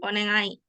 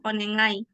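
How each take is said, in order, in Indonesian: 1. Konsonan tengahnya bunyi ng sengau. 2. Konsonan tengahnya bunyi ng sengau.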